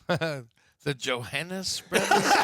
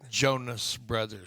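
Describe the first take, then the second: First: The name is said with three syllables. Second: The name is said with two syllables. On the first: The speaker calls it wrong. "for the longest, I thought it was Johannes" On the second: The speaker calls it right. "Say it right"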